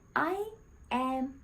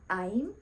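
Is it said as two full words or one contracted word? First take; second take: full words; contracted. First: It is said as two separate full words. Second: It is said as one contracted syllable. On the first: "It's okay to use long terms" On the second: "to be natural, we have to use contractions"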